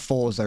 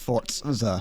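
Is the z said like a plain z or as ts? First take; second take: plain z; ts. First: The z is said as a plain z. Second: The z is said with a t sound. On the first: The speaker calls it wrong. "It's not Forza" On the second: The speaker calls it right. "there's a bit of a t sound to it"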